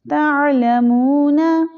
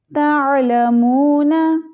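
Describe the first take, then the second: No difference in how they are said.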